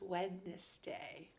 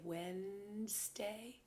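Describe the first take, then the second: First: The d is sounded, said as Wed-nes-day. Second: The d is silent, said as Wenz-day. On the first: This follows the spelling of the word. "really the N is on the other side of the D, so it's Wednesday" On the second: This is how most people say it. "Most people say Wednesday"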